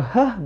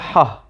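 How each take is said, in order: First: A light, breathy h sound. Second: A tense, throaty h from deep in throat. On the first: The speaker calls it wrong. "is not a H" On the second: The speaker calls it right. "like the Arabic letter H"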